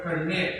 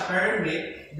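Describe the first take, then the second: First: Permit with the weight on MIT; verb stress. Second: Permit with the weight on PER; PER-mit in permit; noun stress. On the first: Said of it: "permit is function as a verb". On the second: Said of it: "that is noun". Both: Shown as a demonstration.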